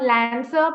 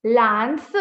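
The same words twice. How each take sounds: First: LANCER with a flat English "a" as in cat; mispronounced LANCER. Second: LANCE with an open ah, like "lahn-suh"; correct LANCE vowel. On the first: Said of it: "it's not lancer". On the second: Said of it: "please don't say lancer". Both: Shown as a demonstration.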